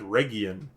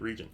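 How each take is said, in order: First: The g is a hard g sound. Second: The g is a soft j sound. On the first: The speaker calls it wrong. "no one, uh, you know, in proper English says" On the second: The speaker calls it right. "it's actually region"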